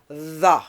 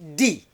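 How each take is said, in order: First: It begins with a voiced th sound. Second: It begins with a hard d sound. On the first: The speaker calls it right. "voice dental fricative" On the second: The speaker calls it wrong. "some people say D"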